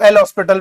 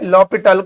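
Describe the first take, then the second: First: The H and S sounds are clearly pronounced. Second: The H and S sounds are left silent. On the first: "कुछ लोग L हॉस्पिटल भी बोल देते हैं" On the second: "यहां पर एच और एस आपका साइलेंट की तरह है"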